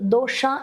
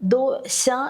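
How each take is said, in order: First: The sh sound is made with tongue curled back. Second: The sh sound is made near the teeth. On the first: The speaker calls it wrong. "അവരെപ്പോഴും പറയുന്നത് ദോഷ എന്നാണ്" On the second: The speaker calls it right. "ശ എന്നിങ്ങനെ നമ്മുടെ നാവുണ്ടല്ലോ, അത് പല്ലിൻ്റെ അടുത്ത്"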